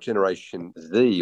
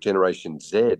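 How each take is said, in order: First: The letter Z is said the non-Australian way. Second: The letter Z is said the Australian way.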